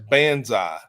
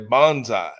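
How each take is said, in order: First: It is said with an American reading. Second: It is said with a Japanese reading. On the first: "we would read B A N S A I as banzai" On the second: "The Japanese vernacular would say bonsai"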